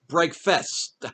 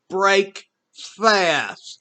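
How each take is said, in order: First: The second syllable sounds like fest. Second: The second syllable sounds like fast, said slowly. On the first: The speaker calls it wrong. "like fest, like festival" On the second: The speaker calls it right. "It's not fest, it's fast"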